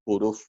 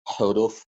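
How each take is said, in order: First: The initial H is almost silent. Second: The initial H is clearly pronounced. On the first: "I usually pronounce it huruf. almost silent H" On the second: "I do pronounce it sometimes with huruf"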